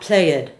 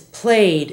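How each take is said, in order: First: The word is said as two syllables. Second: The word is said as one syllable. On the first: The speaker calls it wrong. "not played" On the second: The speaker calls it right. "play is played in the past"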